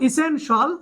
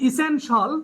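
First: The ending is said as one syllable, shul. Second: The ending is said as one syllable, shul.

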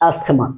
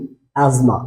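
First: The middle has an 's-th' sound. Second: The middle has a 'z' sound. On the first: The speaker calls it wrong. "আমরা most of the time বলি আস্থমা" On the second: The speaker calls it right. "এই শব্দটার সঠিক উচ্চারণ হবে কি? অ্যাজমা"

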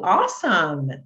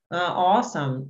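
First: The word is said with lively, excited energy. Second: The word is said flat, without excitement. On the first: The speaker calls it right. "vai ser mais empolgação" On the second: The speaker calls it wrong. "Não combina muito falar assim"

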